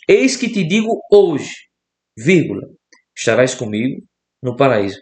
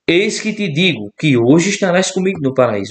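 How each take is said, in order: First: There is a break right after hoje. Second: It runs on with no break after hoje.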